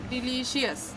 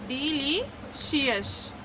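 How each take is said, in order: First: डिलीशियस repeated softer with a falling close; a quiet final डिलीशियस. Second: डिलीशियस stretched very slowly, each syllable clear; slow model word. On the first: Teacher repeating the word to students, softer. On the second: Teacher modelling pronunciation to students, very slow. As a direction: draw out डिलीशियस for learners. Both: Shown as a demonstration. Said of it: "तो ये हो जाएगा डिलीशियस".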